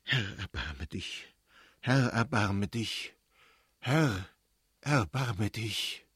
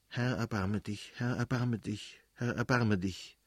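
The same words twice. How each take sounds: First: Very slow, heavy plea; solemn, fearful appeal to God; prayer in dread. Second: Understated murmured prayer to oneself; restrained private plea; praying to herself. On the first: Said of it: "mit Grauen vor einer ungewissen Zukunft". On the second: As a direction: repeat it evenly, like a bedtime prayer. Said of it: "sagte sie bei sich". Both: A narrator's reading.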